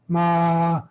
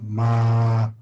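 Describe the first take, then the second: First: The pitch is held high. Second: The pitch is held low. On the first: "high tone" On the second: "low tone"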